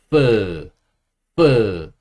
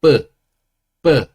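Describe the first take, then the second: First: 뿌 as a loud F with air escaping; airy F sound. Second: 뿌 as a short tense Korean double-b; Korean ssangbieup sound. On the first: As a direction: let plenty of air out on 뿌, like an English F. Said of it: "바람이 좀 많이 빠지죠". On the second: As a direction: say 뿌 with a tight b, no air. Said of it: "쌍비읍 소리는". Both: Shown as a demonstration.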